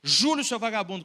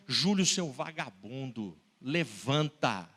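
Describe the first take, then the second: First: Loud, higher angry yell; cursing yell. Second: Low, slow, drawn-out scold. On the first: Retold or imitated. Father shaking his son and cursing him, loud. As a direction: shout the curse at him. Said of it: "bufando com ele, praguejando". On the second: Acted. Father scolding the boy in bed, low and slow. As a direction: drag it out, heavy and low.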